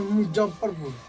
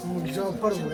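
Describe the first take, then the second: First: Said in the usual way. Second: मुजफ्फरपुर said from deep in the throat, a bit lower and softer; deep-throat pronunciation. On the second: Shown as a demonstration. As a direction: push मुजफ्फरपुर from the back of the throat. (मुजफ्फरपुर गले की गहराई से) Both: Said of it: "ऐसे गले गहराई से बोलते हैं".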